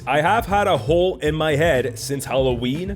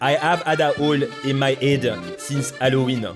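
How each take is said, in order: First: Plain English accent, every H sound pronounced. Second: Strong French accent, every H sound dropped.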